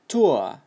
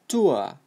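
First: It is said with a British accent. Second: The same.

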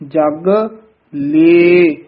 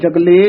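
First: The syllables are said as two separate words. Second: The syllables are run together as one word. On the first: The speaker calls it right. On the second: The speaker calls it wrong.

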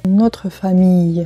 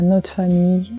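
First: The consonant and mute e are fully pronounced. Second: The consonant and mute e are dropped. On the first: The speaker calls it wrong. "не" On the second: The speaker calls it right. "В разговорной беглой речи часто «э» немой выпадает не один, а с соседним согласным"

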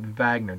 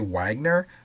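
First: The name is pronounced the German way. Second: The name is pronounced as English spelling suggests. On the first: The speaker calls it right. "he was German, so we're going to pronounce it Wagner, just like the Volkswagen" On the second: The speaker calls it wrong. "doesn't it say Wagner?"

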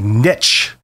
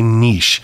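First: It is said the American way. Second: It is said the Canadian way.

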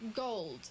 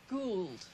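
First: The word has its ordinary, standard pronunciation. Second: The word has an affected, drawled vowel. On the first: "instead of saying gold" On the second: "they said gould"

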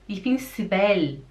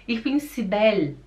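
The two takes are said the same way.

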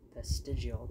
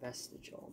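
First: The word has an extra 'ee' sound before the end. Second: The word has no extra 'ee' sound before the end. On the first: The speaker calls it right. "but it's vestigial. There's another I" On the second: The speaker calls it wrong. "Kept saying vestigial"

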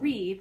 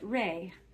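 First: The syllable is pronounced in an English way. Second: The syllable is pronounced in an Italian way. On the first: The speaker calls it wrong. "Not re" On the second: The speaker calls it right. "but re"

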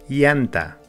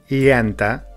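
The two takes are said the same way.

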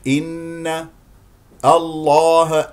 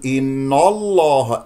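First: The n sound is kept light and thin. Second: The n sound is made heavy and emphatic. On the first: The speaker calls it right. "ولكنه الصحيح" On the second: The speaker calls it wrong. "هنا النون ممكن أن تفخم"

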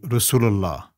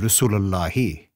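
First: The word ends without any final vowel. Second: The word ends with a short 'i' vowel. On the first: This is the everyday spoken form. "You say Rasulullah" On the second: This is the full grammatical form. "It's actually Rasulullahi"

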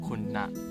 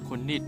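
First: The second syllable is reduced to na. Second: The second syllable is said in full as nit. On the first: This form is used when telling the time. "ถ้าเราจะไปพูดในเรื่องของเวลา...เราจะพูดว่าคุณนะ" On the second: This is the plain count form of seven. "7 ภาษาพม่าจะอ่านว่าคุณนิด"

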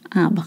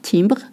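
First: The first vowel is the nasal 'in' sound. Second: The first vowel is not the nasal 'in' sound. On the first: The speaker calls it right. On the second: The speaker calls it wrong. "not timbre"

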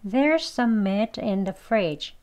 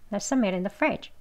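First: The sentence is spoken at a moderate pace. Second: The sentence is spoken very fast. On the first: "한번 더요" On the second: "아주 빨리 하면"

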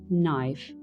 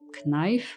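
First: The word begins with an n sound. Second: The word begins with a k sound. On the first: The speaker calls it right. "opuszczając K" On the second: The speaker calls it wrong. "jak czytalibyśmy je z K"

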